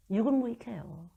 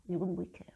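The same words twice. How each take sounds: First: 유근무익해요 said slowly with a rising tune; emphatic. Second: 유근무익해요 said again softer and falling; softer repeat. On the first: Preacher stressing 유근무익해요 to congregation, slow rise. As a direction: stretch 유근무익해요 slowly, lifting at the end. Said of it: "repeated word". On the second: Preacher repeating 유근무익해요 quietly to herself, soft. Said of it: "repeated word, softer". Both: Real, not acted.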